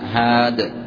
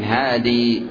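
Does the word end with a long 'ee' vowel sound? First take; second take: No; Yes. First: The word ends without a final long vowel. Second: The word ends with a long 'ee' vowel. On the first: "الوقف بحذف التنوين وبحذف الياء" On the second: "ويصح الوقف بإثبات الياء ساكنة"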